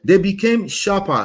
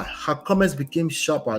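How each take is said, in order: First: "They became sharper" read slow, higher and louder; emphatic reading. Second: Said in the usual way. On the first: Shown as a demonstration. Reading the husband's complaint aloud to viewers, slow emphatic stress. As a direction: lean hard into "They became sharper", slowly.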